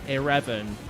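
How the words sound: It is said in an imitated Japanese-style accent. "They'll say eleven instead. The accent is really strange"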